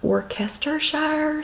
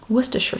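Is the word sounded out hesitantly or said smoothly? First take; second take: hesitantly; smoothly. First: It is sounded out haltingly, as if reading it. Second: It is said smoothly in one short flowing form. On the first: Someone reading the word for the first time. The speaker calls it wrong. "I'm sitting here trying to read it going" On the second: The way it was taught at home. The speaker calls it right. "She pronounced it Worcestershire"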